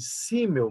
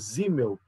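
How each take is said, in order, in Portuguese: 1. O nome começa com som de S. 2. O nome começa com som de Z. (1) "o nome dele se escreve Simmel" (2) "mas se pronuncia Simmel, porque em alemão o S tem som de Z"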